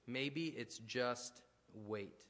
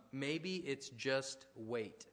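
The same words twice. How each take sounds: First: Even slower, quieter, letting it land; slower, softer repeat. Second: Drawn out slowly, every word weighed; slow and deliberate. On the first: Pastor repeating his point, slower and softer. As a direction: repeat it gently, more slowly. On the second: Pastor to his church, slow and deliberate. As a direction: let the idea sink in slowly. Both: Shown as a demonstration.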